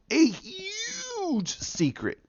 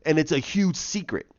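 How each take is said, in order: First: Very high, slow and softer, stretched like a ghost story; milk the mystery with a wailing hush; spooky hammed-up hush. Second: Said in the usual way. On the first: The vlogger teasing viewers about the gods' secret, spooky slow hush.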